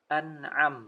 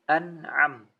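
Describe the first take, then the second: No difference in how they are said.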